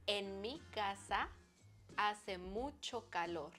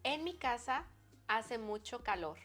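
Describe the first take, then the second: First: It is said slowly. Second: It is said at normal speed.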